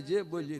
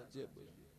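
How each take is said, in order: First: Said in the usual way. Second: Faint echo of the word જે બોલી, much softer and breathed; mock echo. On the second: Words bounce back off the wall as a whispered echo. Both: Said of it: "જેમ દિવાલમાં દડો જાય ને પાછો આવે".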